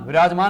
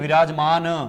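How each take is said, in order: First: The final consonant is cut short, with no vowel. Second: The final consonant is said in full, with a vowel. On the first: The speaker calls it wrong. "विराजमान नहीं" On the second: The speaker calls it right. "यानी कि पूरे न का प्रयोग होगा"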